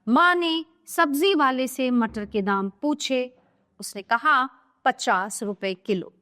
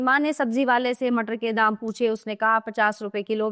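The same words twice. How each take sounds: First: There is a clear pause between the sentences. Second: It runs on without a pause between sentences. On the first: The meaning comes across clearly. The speaker calls it right. "अब इसको पढ़ने का सही तरीका" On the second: The meaning is hard to follow. The speaker calls it wrong. "तो अगर हम इसको पढ़ेंगे तो ये ऐसे बोला जाएगा।"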